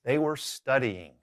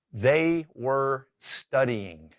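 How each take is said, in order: First: Said in the usual way. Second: Very slow, word by word; deliberate, drawn-out example sentence; slow model sentence. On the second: Shown as a demonstration. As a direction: stretch out each word for learners. Teacher sets up sentence to translate.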